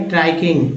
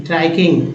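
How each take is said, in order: Both takes have the same delivery.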